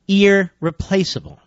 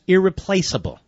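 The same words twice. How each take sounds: First: "Irreplaceable" drawn out slowly, syllable by syllable; pointed repetition. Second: Said in the usual way. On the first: Real, not acted. Host repeats the agency's word for listeners, "Irreplaceable" slow and pointed. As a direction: dwell slowly on every part of "Irreplaceable".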